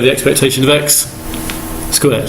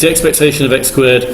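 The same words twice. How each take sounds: First: There is a pause just before the word 'squared'. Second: It runs straight through without a pause before 'squared'. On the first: The expectation is found first, then squared. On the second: Each value is squared, then the expectation is taken.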